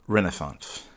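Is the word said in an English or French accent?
English. The word is said in a plain English accent.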